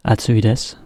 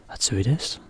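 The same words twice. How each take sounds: First: Said in the usual way. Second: Atsui desu softer with desu rising; teacher showing a Japanese question by tune only. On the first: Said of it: "Little difference". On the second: Shown as a demonstration. Softer, desu rising, a question. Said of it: "kind of go up a bit".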